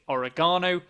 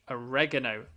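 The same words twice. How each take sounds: First: It is said in a British accent. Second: It is said in an American accent. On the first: "British English" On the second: "American English"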